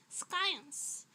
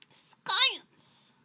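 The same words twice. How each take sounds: First: Said in the usual way. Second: High, loud, booming "science"; dramatic exclamation. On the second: Acted. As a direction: announce "science" like a grand reveal. Dramatic exclamation after explanation.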